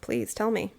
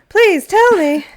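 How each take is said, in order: First: It is said in a flat, uninterested tone. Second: It is said in an eager, interested tone. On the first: "that sounded so uninterested" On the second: "but more interested?"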